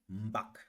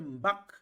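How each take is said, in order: First: The word is said on a low tone. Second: The word is said on a high tone. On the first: "Je fais un abaissement dans la voix" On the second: "Le ton est haut"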